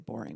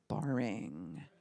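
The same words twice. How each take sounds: First: The word is said plainly, without exaggeration. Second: The word is stretched out with exaggerated disgust. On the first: "we don't say boring" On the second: "we say boring. ... taking it to the pukey stage of like boring"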